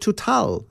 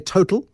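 First: The name is said with a French pronunciation. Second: The name is said with an English pronunciation. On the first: "The French call it Total" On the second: "some people say Total for the petrol station"

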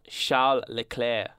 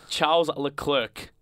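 First: The name is said with French sounds. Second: The name is said with English sounds. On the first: The speaker calls it wrong. "not Charles Leclerc" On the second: The speaker calls it right. "Without saying, putting some French-sounding shit into this"

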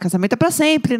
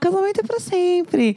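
First: The tone is slightly irritated. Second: The tone is sweet and affectionate. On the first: "Como tem a um pouco irritada" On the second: "Ela tem a entonação fofa de"

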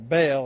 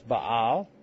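First: The name is said with an English pronunciation. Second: The name is said with a Hebrew pronunciation. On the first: "or Baal, I guess, in English" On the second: "in Hebrew it's Baal"

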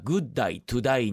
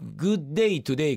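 First: The vowels sound like 'die' instead of 'day'. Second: The vowels sound like 'day' in plain English.

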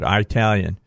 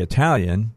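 First: The first vowel is a hard 'eye' sound. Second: The first vowel is a short 'ih' sound. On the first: The speaker calls it wrong. "They hit that first I real hard" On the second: The speaker calls it right. "a lot of people don't say Italian"

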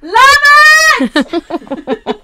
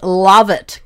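First: It is yelled loudly. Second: It is said at a normal volume.

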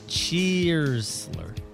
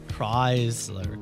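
First: The name begins with a 'ch' sound. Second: The name begins with a 'k' sound.

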